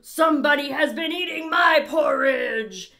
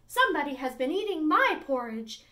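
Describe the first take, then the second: First: A great, rough, gruff Great Huge Bear voice. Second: A softer voice for the middle-sized bear.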